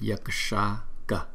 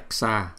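First: A faint, weak k sound is heard. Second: No faint k sound is heard. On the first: The speaker calls it right. "mà đọc là Yaksha Ka" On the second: The speaker calls it wrong. "Chúng ta đừng có đọc là Yaksha"

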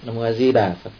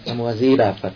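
First: The stress falls on the words Di Đà. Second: The same.

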